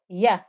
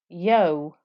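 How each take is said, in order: First: The vowel is a clear open a. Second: The vowel sounds rounded, like o. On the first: The speaker calls it right. "You need to hear that ah noise" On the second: The speaker calls it wrong. "if I don't make the fatha clear, it will start to sound like yo"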